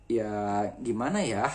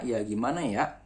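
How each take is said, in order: First: Sundanese lilt, slow, the final ya breathed out with an h; Sundanese ending. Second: Jakarta style, the final ya cut short with a glottal stop; Jakarta ending. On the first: Teacher demonstrating Sundanese speech to the class. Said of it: "orang Sunda ... bukan glotal ... tapi huruf H". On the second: Teacher contrasting Jakarta speech with Sundanese. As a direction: ya gimana ya, clipped off at the end. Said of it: "Tapi kalau orang Jakarta". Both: Shown as a demonstration.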